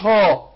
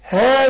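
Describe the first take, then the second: First: The syllable sounds heavy and deep. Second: The syllable sounds light and thin. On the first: The speaker calls it wrong. "مش ها" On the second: The speaker calls it right. "ها مش ها"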